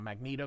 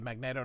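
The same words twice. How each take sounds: First: It starts with a long ee sound. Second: It starts like the word magnet. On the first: The speaker calls it wrong. "not Magneto, ... it's not Magneek" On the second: The speaker calls it right. "because it's magnet with an O"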